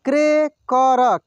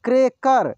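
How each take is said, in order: First: cracker drawn out slowly, syllable by syllable; slow sounding out. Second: Said in the usual way. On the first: Shown as a demonstration. Teacher slowly sounds out cracker for students. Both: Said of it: "एक एक मात्रा को अलग अलग करके".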